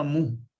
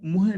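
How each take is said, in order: First: ਮੂੰਹ as one nasal syllable; ਮੂੰਹ closing on a long nasal "oo"; correct reading. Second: ਮੂੰਹੇ with an added final "e"; wrong reading. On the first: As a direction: say ਮੂੰਹ with no "e" at the end. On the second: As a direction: say ਮੂੰਹੇ in two syllables, ending in "-he". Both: Shown as a demonstration. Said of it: "ਇਹਨੂੰ ਮੂੰਹੇ ਨਹੀਂ ਪੜਨਾ".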